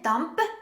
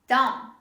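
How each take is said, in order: First: The final B sound is pronounced. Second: The final B sound is silent. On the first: The speaker calls it wrong. "Don't say dump" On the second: The speaker calls it right. "This is dumb"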